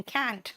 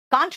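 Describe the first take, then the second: First: American "kant" with flattened a; American-style short twanged vowel; mock American accent. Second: कांच said as "kaant", long open aa; can't with a broad aa for कांच; Indian-English pronunciation. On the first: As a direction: imitate American can't, softer. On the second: Shown as a demonstration. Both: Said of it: "कांच नहीं बोलते हैं".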